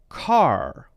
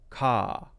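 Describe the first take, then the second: First: The word ends with a clear R sound. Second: The word ends in an open vowel without R. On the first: "He would pronounce that as car" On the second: "it's an open sound, ka, ah, almost like there isn't an R there"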